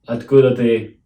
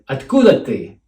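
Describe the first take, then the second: First: The pitch stays flat throughout. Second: The pitch rises and then falls. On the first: It might not be clear that it's a question. The speaker calls it wrong. "We're not going to keep it flat" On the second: It is clearly a question. The speaker calls it right. "we're going to go up and down to show question intonation"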